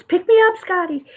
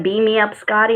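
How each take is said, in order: First: Pitched-up playful punchline; playful catchphrase. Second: Said in the usual way. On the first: Acted. Host swaps Beam me up for a card pun, playful catchphrase. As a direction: pop it up high as a joke.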